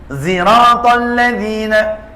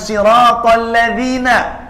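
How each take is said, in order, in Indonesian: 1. Kata pertama diawali dengan bunyi z. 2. Kata pertama diawali dengan bunyi s. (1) "ada yang baca ziratal" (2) "bukan siratal ladzina"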